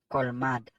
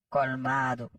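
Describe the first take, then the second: First: The word ends without a final vowel. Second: The word ends in a final vowel. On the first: The speaker calls it wrong. "toujours mal prononcé, yo dit colmade" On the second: The speaker calls it right. "c'est pas colmade, c'est colmado"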